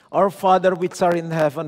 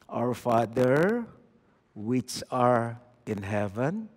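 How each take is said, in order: First: It is said fast and mechanically, like a robot. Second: It is said slowly and thoughtfully.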